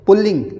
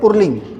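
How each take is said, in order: First: The first syllable ends with an L sound. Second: The first syllable ends with an R sound. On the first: The speaker calls it right. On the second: The speaker calls it wrong.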